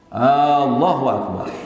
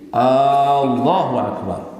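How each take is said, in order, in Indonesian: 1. Vokal pembuka pada Allahu dipanjangkan. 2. Vokal pembuka pada Allahu dipanjangkan.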